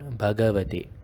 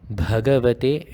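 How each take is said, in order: First: The first consonant is a plain b sound. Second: The first consonant has a strong breathy puff. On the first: The speaker calls it wrong. "and not Bhagavate" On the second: The speaker calls it right. "you should be pronouncing it as Bhagavate"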